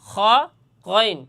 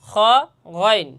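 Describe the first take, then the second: The two takes are said the same way.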